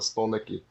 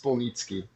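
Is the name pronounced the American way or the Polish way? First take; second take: American; Polish. First: The name is said with an American pronunciation. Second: The name is said with a Polish pronunciation. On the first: This is how it is said in the United States. "we're in the United States, so Spolnicki" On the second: This is how it is said in Poland. "Unless you're in Poland, then it's Spolnicki"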